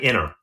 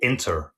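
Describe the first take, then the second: First: The word is said in a relaxed, casual way. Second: The word is said in a careful, precise way. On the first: This is how most people say it. "most people would just say" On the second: This is how newscasters say it. "some newscasters will say"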